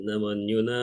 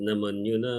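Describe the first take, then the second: Both takes have the same delivery.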